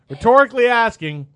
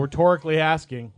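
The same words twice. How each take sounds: First: "rhetorically" punched higher and louder; stress on rhetorically. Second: Said in the usual way. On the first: Real, not acted.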